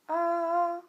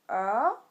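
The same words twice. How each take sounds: First: The pitch stays high and level. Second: The pitch rises from middle to high.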